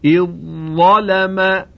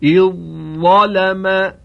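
First: The dh sound merges into the following z sound. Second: The same.

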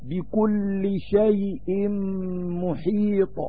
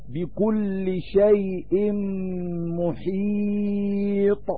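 First: The vowel before the last consonant is medium length. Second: The vowel before the last consonant is held long. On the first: "والتوسط" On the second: "بالطول"

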